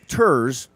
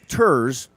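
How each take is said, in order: First: The vowel sounds like 'er' in terse. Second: The vowel sounds like 'er' in terse.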